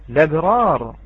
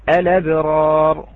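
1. تبدأ مباشرة باللام، دون حركة في أولها. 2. تبدأ بهمزة ثم حركة قبل اللام. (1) "الابتداء باللام دون الهمزة" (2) "الإتيان بهمزة الوصل"

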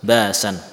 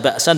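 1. Vokal panjang menggantikan bunyi henti glotal. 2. Bunyi henti glotal mengikuti vokal pertama. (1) "dengan apa?"

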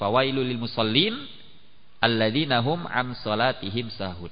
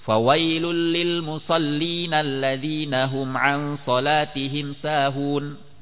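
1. Ada jeda setelah musallin. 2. Bacaannya terus tanpa jeda setelah musallin. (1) "dengan berhenti di akhir ayatnya juga boleh" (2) "lebih afdol untuk disambung"

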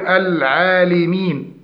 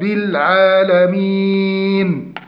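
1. تأتي بعد اللام حركة 'i'. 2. تأتي بعد اللام حركة 'a'. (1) "يكسر اللام في العالمين ... وهذا خطأ" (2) "التحقيق من فتح اللام"

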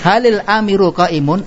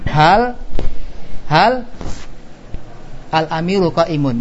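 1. Dua kata pertama disambung menjadi halil. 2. Dua kata pertama dibaca terpisah. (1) "baca sambung" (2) "Ini kalau dibaca putus"

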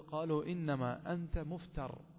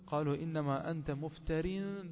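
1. تنتهي الكلمة الأخيرة بصوت راء ساكن فقط. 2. تنتهي الكلمة الأخيرة بالصوت -in المضاف. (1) "عندما تقف عليها تقول" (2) "عندما تصل تنون بالكسر"

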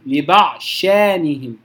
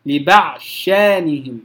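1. يدغم d إدغامًا كاملًا في sh مشددة. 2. يدغم d إدغامًا كاملًا في sh مشددة.

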